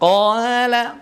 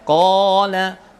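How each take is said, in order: First: The long a is light and thin. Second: The long a is heavy and thick. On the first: The speaker calls it wrong. "qala ditipiskan, nah, tidak bisa ya" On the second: The speaker calls it right. "ko, alifnya ikut panjang, ikut ikut tafkhim"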